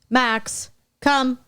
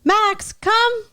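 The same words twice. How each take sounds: First: The call sounds flat and unexciting. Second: The call sounds upbeat and playful. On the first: Nothing enjoyable awaits the dog. The speaker calls it wrong. "you don't sound fun" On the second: Something enjoyable awaits the dog. The speaker calls it right. "saying it in a fun way"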